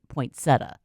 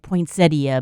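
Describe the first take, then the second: First: It is said in its shorter everyday form. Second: Every letter is sounded out as spelled. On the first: "but you pronounce it poinsettia" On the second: "it looks like poinsettia"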